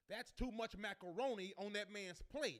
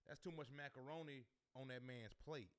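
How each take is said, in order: First: It is screamed very loudly. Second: It is said at normal volume.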